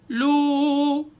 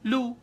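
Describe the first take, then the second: First: The vowel is long and extended. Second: The vowel is short. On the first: "if I extend" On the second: "That's called short vowel"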